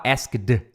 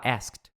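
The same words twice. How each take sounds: First: "asked" ending in a voiced "d"; overdone d sound closing "asked"; wrong "asked". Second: "asked" ending in a crisp t; unvoiced t sound closing "asked"; correct "asked". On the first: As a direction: say "asked" as "ask-duh". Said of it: "você não fala asked". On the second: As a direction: say "asked" as "askt". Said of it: "você fala asked". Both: Shown as a demonstration.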